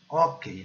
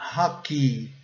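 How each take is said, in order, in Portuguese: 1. É pronunciado com pronúncia do português brasileiro. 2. É pronunciado com pronúncia do inglês. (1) "Nós falamos hockey" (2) "Mas a pronúncia correta é hockey"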